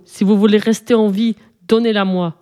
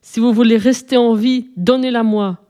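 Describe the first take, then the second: First: Understated rumbled threat from a monster; monstre qui gronde. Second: Mildly bellowed monster threat; monstre qui hurle. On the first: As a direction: hold the threat in, like a storybook monster. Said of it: "gronda le monstre". (menace de monstre, grondée avec retenue) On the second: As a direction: press the threat with a slightly raised storybook voice. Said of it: "hurla-t-il". (menace de monstre, hurlée avec retenue) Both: A narrator's reading.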